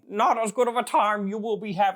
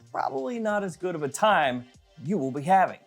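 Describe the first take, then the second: First: It is said in a put-on Yoda-like voice. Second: It is said in his normal voice.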